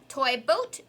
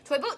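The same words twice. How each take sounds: First: It is said at a slower pace. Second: It is said at a faster pace.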